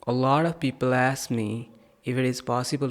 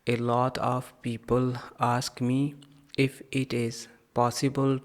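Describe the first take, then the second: First: The words run together, linked into bundles. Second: Each word is said separately, without linking. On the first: The speaker calls it right. "चलिए पहले मैं आपको सुनाता हूँ" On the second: The speaker calls it wrong. "यकीनन आपने इस तरह से रीड किया होगा"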